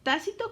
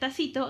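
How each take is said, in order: First: The stress is on the first syllable. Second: The stress is on the second syllable. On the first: It means implied or unspoken. "con acento en la A" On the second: It means a small cup. "porque si no diría tacito"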